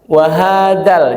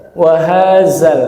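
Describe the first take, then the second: First: "wahadal" with a hard d for the dzal; plain D sound. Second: "wahazal" with a buzzing z for the dzal; Z sound. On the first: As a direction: say the last syllable of "wahadal" as dal. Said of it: "Jadi dal". ("wahadal" dengan bunyi D) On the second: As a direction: say the last syllable of "wahazal" as zal. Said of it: "Jadi zai". ("wahazal" dengan bunyi Z) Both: Shown as a demonstration.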